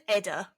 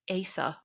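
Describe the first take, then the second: First: The middle consonant is a plain 'd' sound. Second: The middle consonant is a soft 'th' sound. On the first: "we'll pronounce them as written by anglicised English" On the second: "in Welsh that would be something like Aether"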